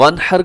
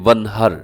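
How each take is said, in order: First: The h is a throaty, deep-in-the-throat sound. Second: The h is a light, plain breathy sound. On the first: It means to offer a sacrifice. "वनहर का मतलब होता है और कुर्बानी कीजिए" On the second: It means to scold. "यानी दो आंखों वाला हा इस्तेमाल कर दे"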